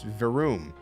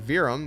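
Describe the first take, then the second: First: The second syllable sounds like 'oom'. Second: The second syllable sounds like 'um'. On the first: The speaker calls it right. "it's Verum. Verum, V E R O O M" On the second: The speaker calls it wrong. "It's actually not Virum"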